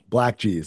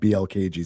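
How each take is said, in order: First: The first part is said as one word. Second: The first part is spelled out letter by letter. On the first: The speaker calls it right. "thank you for the correction" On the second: The speaker calls it wrong. "I see three letters"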